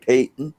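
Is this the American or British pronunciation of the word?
British. It is said the British way. "They say patent"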